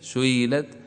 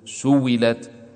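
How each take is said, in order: First: The hamza is softened between hamza and a vowel. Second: The hamza is replaced by a full consonant sound. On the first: "أول كان عندنا التسهيل سئلت" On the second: "والآن زاد الإبدال"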